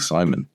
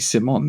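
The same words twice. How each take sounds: First: The name is said with an English pronunciation. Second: The name is said with a French-style pronunciation. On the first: This is how French or Italian people do not say the name. "They won't call me Simon" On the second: This is how French or Italian people say the name. "listen to a French person, an Italian person, they'll call me Simon"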